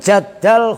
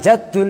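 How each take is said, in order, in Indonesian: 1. Vokal setelah 'jadd' adalah 'a'. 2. Vokal setelah 'jadd' adalah 'u'. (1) "itu asalnya adalah ya Jaddal Husaini" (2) "bukan bukan Jaddul"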